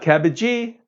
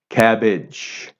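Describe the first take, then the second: First: An extra vowel sound follows the final consonant. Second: The word ends cleanly on the final consonant. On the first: The speaker calls it wrong. "Not cabbagee" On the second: The speaker calls it right. "cabbage, C A B B A G E, cabbage"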